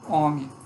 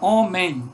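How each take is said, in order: First: The final nasal syllable is reduced and weak. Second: The final nasal syllable is fully pronounced. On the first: This is how people usually say it. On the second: This is the full citation form.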